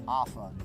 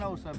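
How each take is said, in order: First: The word is said in a Southern American accent. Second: The word is said in a standard, neutral way. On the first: This is how one particular rider said the name. "Ed in his southern accent called it a Asa" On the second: This is how most people say the name. "Most people call it an Osa"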